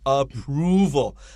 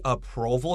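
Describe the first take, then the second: First: The middle vowel is a long 'oo' as in moon. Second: The middle vowel is not the 'oo' of moon. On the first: The speaker calls it right. "Be careful of the pronunciation of approval" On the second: The speaker calls it wrong. "A lot of students would say approval here, and that's not correct"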